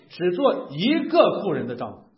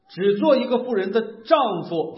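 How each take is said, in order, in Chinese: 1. 重音落在“一个”这个词上。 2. 重音落在“丈夫”这个词上。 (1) "就是强调不能有两个以上媳妇" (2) "好像我在强调这是个弟兄"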